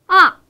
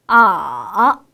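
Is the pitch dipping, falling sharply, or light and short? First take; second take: falling; dipping. First: The pitch falls fast and loud from high. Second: The pitch dips low, then rises slightly. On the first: "가장 높은 음에서 가장 낮은 음으로 강하고 빠르게 떨어뜨리면서" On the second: "조금 낮은 음에서 시작해서 가장 낮은 음까지 내려갔다가 천천히 살짝 위로 올리는 소리"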